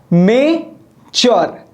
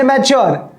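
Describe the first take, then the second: First: mature pulled apart slowly as "may", "chor"; long pause inside mature after the first syllable; slow two-beat mature; split into two syllables. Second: Said in the usual way. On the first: Shown as a demonstration. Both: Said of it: "यहां पर मैं दो सांस ले रहा हूं".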